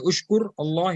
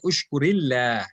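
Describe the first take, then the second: First: The words are said separately, without a linking vowel. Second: The words are joined with an i linking vowel. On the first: The speaker calls it wrong. "you will not say ushkur Allah" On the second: The speaker calls it right. "you will say ushkurillah"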